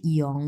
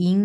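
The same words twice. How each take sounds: First: ইয়ং with a glide after the i; correct pronunciation. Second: ইং as one plain i before ng; common mispronunciation. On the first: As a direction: slide from i into the vowel of ইয়ং. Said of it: "এটা হচ্ছে ইয়ং". (স্লাইড করে ইয়ং) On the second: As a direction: say ইং without any glide. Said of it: "এটা অনেকে ইং বলতে পারে". (ও-ধ্বনি ছাড়া সোজা ইং) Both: Shown as a demonstration.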